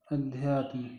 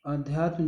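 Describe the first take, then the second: First: अध्यात्म with short opening "a"; correct pronunciation. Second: आध्यात्म with long opening "aa"; wrong form pronounced. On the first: Teacher giving students the right form, sounded out. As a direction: say अध्यात्म softly as a-dhyaatm. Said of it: "इस तरह से होगा". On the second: Teacher pointing out a suspect spelling, wrong form sounded out. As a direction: say आध्यात्म as aa-dhyaatm. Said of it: "हमें अशुद्ध लग रहा है". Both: Shown as a demonstration.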